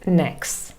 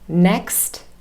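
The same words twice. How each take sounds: First: The final t sound is dropped. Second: The final t sound is pronounced. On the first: "t is lost as well" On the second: "it ends in a final t sound"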